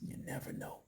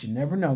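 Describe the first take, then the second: First: Whispered, almost voiceless aside; knowing whisper. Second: Said in the usual way. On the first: Real, not acted. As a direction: drop to a whisper, as if hinting. Hushed repeat to the viewers.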